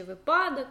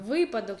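First: Випадок stressed on the middle syllable, виПАдок. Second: Випадок stressed on the first syllable, ВИпадок. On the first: Teacher giving the alternative stress, випадок stressed виПАдок. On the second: Teacher showing students a disputed stress, випадок stressed ВИпадок. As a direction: hit the opening ВИ of випадок. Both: Shown as a demonstration. Contrasting two possible stresses of a word.

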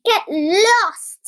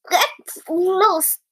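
First: Higher, slightly drawn-out telling-off; cross shout. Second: Spluttered through a mouthful of crumbs; broken-up words, spat out as if mouth full; spluttering. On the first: Cheeky tailor to the flies round his jam, cross shout. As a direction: shoo them off crossly, voice raised. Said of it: "he spluttered through a mouthful". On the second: Tailor with his mouth full to the flies, spluttering. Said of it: "he spluttered through a mouthful of crumbs". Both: A narrator's reading.

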